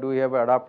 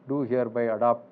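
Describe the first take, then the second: First: The phrase is spoken at a fast pace. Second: The phrase is spoken at a slow pace. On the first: "ಇನ್ನೂ ಫಾಸ್ಟಾಗಿ ಹೇಳಬಲ್ಲೆ" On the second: "ನಾನು ಇದು slow ಆಗಿ ಹೇಳಿದೆ"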